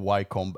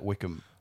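First: The name is read out as spelled, 'Wy-combe'. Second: The name sounds like 'Wickham', the British way. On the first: "Vi drev og diskuterte om det er Wycombe eller Wickham" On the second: "de sier faktisk Wickham"

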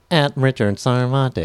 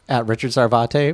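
First: It is said in a put-on automated phone voice. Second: It is said in his normal speaking voice.

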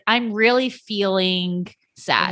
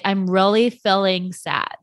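First: It is said in a standard accent. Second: It is said in a Utah accent.

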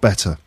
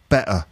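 First: The middle t is a clear t. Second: The middle t is a glottal stop. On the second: "to find out more about glottal stops"

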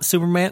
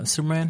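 First: The word is called out loudly. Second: The word is said quietly without yelling. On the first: "someone could just be like" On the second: "they don't even got to yell it. They go"

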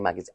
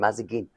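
First: The word is said with the usual 'ga-zine' order. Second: The word is said with the swapped 'za-gine' order. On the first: "I still now can't say magazine" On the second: "it's said Mazagine for so long with the kids"

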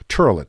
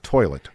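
First: The first vowel sounds like 'er'. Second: The first vowel sounds like 'oy'. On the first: This is the local regional way. "OIs are usually pronounced like R's. You say turlet" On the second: This is the standard way used elsewhere. "not toilet"

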